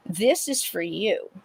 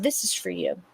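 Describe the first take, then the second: First: Said in the usual way. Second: A breathless whisper; soft ghostly whisper. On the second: Retold or imitated. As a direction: breathe the words as a spirit would. Ghost's words retold, whispered.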